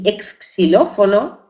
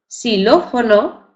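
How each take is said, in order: First: The word does not begin with plain s. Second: The word begins with a plain s sound. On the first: The speaker calls it wrong. "ni exxilófono" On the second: The speaker calls it right. "la pronunciamos con la letra S"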